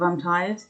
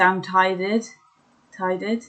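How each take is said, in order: First: Said in the usual way. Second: "tided" said with a D sound instead of the R in "tired"; baby-talk "tided" in place of "tired". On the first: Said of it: "instead of". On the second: Shown as a demonstration. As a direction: say "tided", swapping the R for a D. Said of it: "So I used to say".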